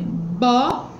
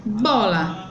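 First: "bola" split into bo, la; syllable by syllable. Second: Said in the usual way. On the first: Shown as a demonstration. Teacher separating the word, "bola" in two beats. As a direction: pause between the syllables of "bola". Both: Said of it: "Ela separou em duas sílabas".

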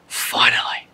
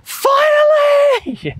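First: Unvoiced, breathed-out word of relief; hushed, acted relief; relieved sigh. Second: Very high, drawn-out yell of triumph; long high-pitched shout, imitating a child; imitated child's yell. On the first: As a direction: let it out as a whispered sigh. Voicing relieved acceptance of invitation. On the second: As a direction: yell it like an elated kid, stretched out. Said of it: "she just yelled".

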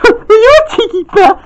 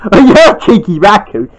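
First: Much higher, playful teasing; high sing-song tease. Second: Lightly lowered man tease. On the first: Girl voice teases. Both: Acted.

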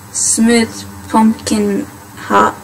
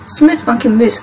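First: Slow, halting, "ha-" started in place of mousse; misread word. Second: "mousse" said correctly, like moose; corrected reading. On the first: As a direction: stumble into "ha-" while reading slowly. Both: Real, not acted. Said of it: "No, mousse".

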